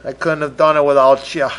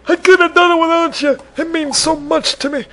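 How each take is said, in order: First: Said in the usual way. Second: High, hammed-up choked thanks; mock tearful thanks. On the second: Host thanking listeners, hammed-up tearful gush. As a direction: gush it like an award speech.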